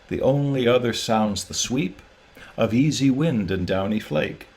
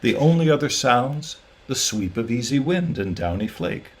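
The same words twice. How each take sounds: First: The line runs on with no pause after 'sounds'. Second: There is a clear pause after the word 'sounds'. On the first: The speaker calls it wrong. "If I were to read them as written, they would sound like this" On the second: The speaker calls it right. "It's the second way that I'm reading now"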